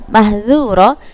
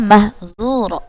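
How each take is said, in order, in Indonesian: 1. Huruf konsonan di tengah itu bunyi 'dh'. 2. Huruf konsonan di tengah itu bunyi 'z'. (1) "Contoh seperti lafaz mahdzura" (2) "dibacanya mahzura"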